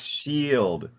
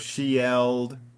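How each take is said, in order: First: The vowel is one single long sound. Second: Both vowel letters are sounded separately. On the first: The speaker calls it right. "here it's shield. I E is pronounced like an E" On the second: The speaker calls it wrong. "if you pronounced it, it would be shield"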